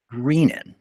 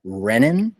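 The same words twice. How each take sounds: First: Long ee in the first syllable of "Greenin"; long-e pronunciation. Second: Short e in "Renin", like "wren"; short-e pronunciation. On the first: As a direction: say "Greenin" as REE-nin. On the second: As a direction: say "Renin" as REN-in. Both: Shown as a demonstration. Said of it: "how do you pronounce it".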